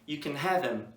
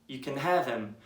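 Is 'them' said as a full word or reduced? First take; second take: reduced; reduced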